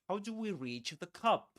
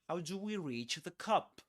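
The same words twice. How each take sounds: Both takes have the same delivery.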